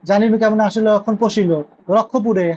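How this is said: It pauses at the verse line end, before রক্ষপুরে.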